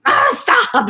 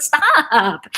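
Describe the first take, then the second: First: High, loud mock outburst; exasperated father. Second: Higher mock protest; exasperated daughter. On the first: Daughter mimicking her dad's outburst, exasperated. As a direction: imitate an old man's exasperated cry. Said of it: "he'd be like". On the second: Daughter answering her dad back, mock exasperated. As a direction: echo the outburst, a little milder. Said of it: "I'd be like".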